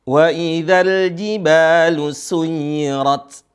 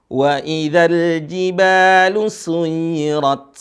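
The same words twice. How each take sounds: Both takes have the same delivery.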